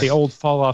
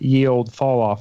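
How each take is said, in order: First: The first word starts with a 'th' sound. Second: The first word starts with a 'y' sound. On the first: The speaker calls it right. "should be pronounced the" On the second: The speaker calls it wrong. "Did you say ye old fall off? Yes, I did"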